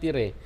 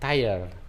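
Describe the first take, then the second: First: It is read letter by letter as spelled. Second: It is said with the English pronunciation. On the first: "Kalau ejaan Indonesianya namanya tire" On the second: "Tapi kalau ejaan pengucapan namanya tire"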